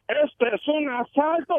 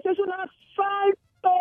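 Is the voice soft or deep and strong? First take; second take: deep, strong; soft. First: It is said in a deep, strong voice. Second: It is said in a soft, timid voice.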